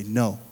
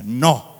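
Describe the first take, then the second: First: Said in the usual way. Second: Loud, punchy "No" in Spanish; emphatic Spanish-accented "No". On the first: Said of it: "Come on, say in Spanish". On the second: Shown as a demonstration. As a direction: say "No" the Spanish way, loudly. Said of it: "say in Spanish".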